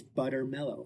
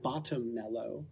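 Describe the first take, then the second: First: "butter mellow", first word said as BUTTER; correct spell wording. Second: "bottom mellow", first word said as BOTTOM; misremembered spell wording. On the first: Podcaster quoting the spell as written, correct "butter mellow". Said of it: "I got one of the words wrong". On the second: Podcaster admitting the misheard spell, wrong "bottom mellow". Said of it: "I thought it was". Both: Shown as a demonstration.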